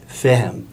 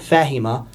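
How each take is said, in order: First: The word is said in its reduced spoken form. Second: The word is said in its full formal form. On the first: This is how the form is spoken. "according to how it's spoken" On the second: This is how the form is written. "which is not fahima"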